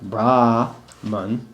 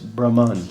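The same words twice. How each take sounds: First: The first vowel is a long a. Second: The first vowel is a short a. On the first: The speaker calls it wrong. "it's not Brahman" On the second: The speaker calls it right. "there's no long A"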